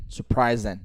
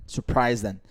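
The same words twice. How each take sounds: The two takes are said the same way.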